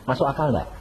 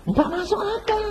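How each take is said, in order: First: Said in the usual way. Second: Much higher, mocking skeptic's answer. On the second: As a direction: sing it up high like a scoffer.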